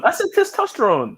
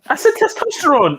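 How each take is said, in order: First: Testosterone said slow and high, repeated firmly; insisting pronunciation. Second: Testosterone said slow and high, each syllable clear; insisting pronunciation. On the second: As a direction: stress the word said, testosterone drawn out. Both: Shown as a demonstration. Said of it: "different ways to pronounce that".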